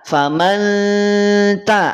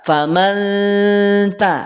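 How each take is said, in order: Both takes have the same delivery.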